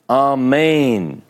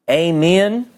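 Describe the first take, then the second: First: The word is said in a powerful, preacherly voice. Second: The word is said in an ordinary voice. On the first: "the great, powerful prayer voice ... would say it" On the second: "when I grew up, it was um"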